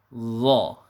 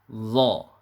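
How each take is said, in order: First: The consonant sounds thick and full. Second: The consonant sounds thick and full.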